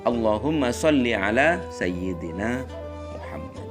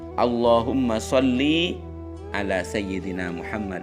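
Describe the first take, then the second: First: The vowel after the l in sholli is short. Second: The vowel after the l in sholli is long. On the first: The speaker calls it right. "Jadi yang benar" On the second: The speaker calls it wrong. "tidak boleh memanjangkan harokat lam pada kata sholli. Seperti umpama dibaca"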